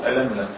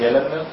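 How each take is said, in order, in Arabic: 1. يبدأ الاسم بهمزة. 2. يبدأ الاسم بصوت ي. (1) "ويقال الهمزة" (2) "يقال يلملم بالياء"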